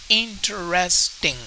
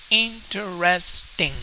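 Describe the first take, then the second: First: The word is said with four syllables. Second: The word is said with four syllables.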